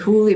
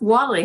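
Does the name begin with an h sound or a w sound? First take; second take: h sound; w sound. First: The name begins with an h sound. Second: The name begins with a w sound. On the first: It follows the spelling of the name. The speaker calls it wrong. "We say Hooley because that's that's how it's spelled" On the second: It is how the name is really said. The speaker calls it right. "it's really pronounced Woolley"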